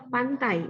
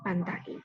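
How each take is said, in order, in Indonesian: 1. Bunyi a dan i di akhir meluncur menjadi satu vokal. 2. Bunyi a dan i di akhir adalah dua vokal terpisah. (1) "diftong, Kita membacanya pantai" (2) "bukan pantai"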